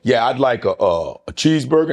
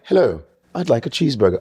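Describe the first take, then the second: First: Said in the usual way. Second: Lightly imitated British accent. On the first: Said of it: "he goes, he goes". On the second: Big guy ordering food, in a put-on British accent. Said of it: "British accent in, um, New York".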